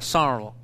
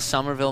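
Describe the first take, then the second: First: The consonants are dropped or softened. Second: The consonants are pronounced fully and clearly. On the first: The speaker calls it right. "there aren't consonants" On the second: The speaker calls it wrong. "I did say that wrong"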